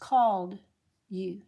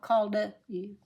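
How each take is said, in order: First: The D links straight into the next word. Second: An extra vowel follows the D before the next word. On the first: The speaker calls it right. "It's just called you" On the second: The speaker calls it wrong. "not called a you"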